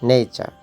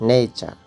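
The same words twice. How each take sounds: No difference in how they are said.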